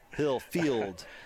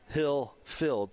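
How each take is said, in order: First: The second part sounds like 'field'. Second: The second part sounds like 'filled'. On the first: The speaker calls it right. "it's a field" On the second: The speaker calls it wrong. "I'm trying very intentionally not to say hill filled"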